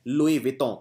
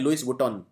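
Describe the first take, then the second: First: Louis has no final s; Vuitton starts 'vee'. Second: Louis ends in an s; Vuitton starts 'voo'. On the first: The speaker calls it right. "इसको बोलते हैं लुई विटॉन" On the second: The speaker calls it wrong. "कई लोग इसे प्रोनाउंस करते हैं लुइस वुटॉन, लुइस वुटॉन नहीं"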